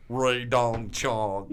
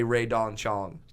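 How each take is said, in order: First: Very slow, drawn-out manager impression; Barry Katz. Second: Said in the usual way. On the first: Manager made to say one name, slow mimicked drone. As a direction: stretch every syllable way out. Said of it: "And he just goes". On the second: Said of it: "he says it in this accent".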